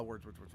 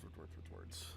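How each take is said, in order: First: Said in the usual way. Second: Whispering the words away; whispered trailing off. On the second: Real, not acted. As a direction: let it fade into a whisper. Searching for a word, trailing off.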